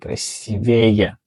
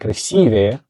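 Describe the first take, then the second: First: The stress is on the third syllable. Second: The stress is on the second syllable. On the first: The speaker calls it wrong. "but they say красивее" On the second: The speaker calls it right. "They need to say красивее"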